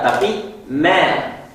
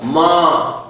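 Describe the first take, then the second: First: The syllable is pronounced light and thin. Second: The syllable is pronounced heavy and thick. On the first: The speaker calls it right. "huruf yang tipis" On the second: The speaker calls it wrong. "Tidak boleh dibaca tebal"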